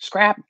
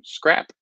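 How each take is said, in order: First: The word is yelled loudly. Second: The word is said at normal loudness.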